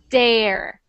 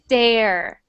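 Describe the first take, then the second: First: The first sound is a hard d. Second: The first sound is a hard d.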